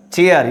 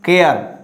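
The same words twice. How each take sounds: First: CHAIR begun with CH as in cha; CH sound. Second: CARE begun with hard K in place of CH; wrong K sound. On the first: Teacher corrects the mistake, CHAIR with a CH sound. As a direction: say CHAIR with CH, never K. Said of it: "you have to say chair". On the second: Teacher shows students the mistake, CARE with hard K. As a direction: say CARE as the misreading of chair. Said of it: "not care". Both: Shown as a demonstration.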